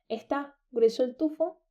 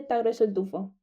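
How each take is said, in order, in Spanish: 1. La primera sílaba de está se pronuncia completa. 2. La primera sílaba de está se omite. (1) "en vez de decir está grueso el tufo" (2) "Burro dice ta"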